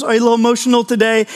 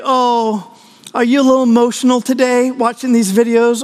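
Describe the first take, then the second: First: Quick teasing repeat; teasing wife. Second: Gently mock him for tearing up; teasing wife. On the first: Retold or imitated. Wife repeating her tease to her husband, rushed mock pity. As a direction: rattle off the tease. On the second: Wife teasing her husband over TV tears, mock pity. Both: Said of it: "she's like".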